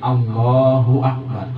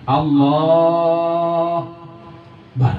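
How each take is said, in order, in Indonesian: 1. Setiap suku kata, termasuk 'ak', dilafalkan sepenuhnya. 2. Suku kata 'ak' dihilangkan sebelum 'bar'. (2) "langsung bar aja aknya kata ada"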